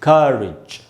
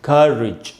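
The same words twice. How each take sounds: The two takes are said the same way.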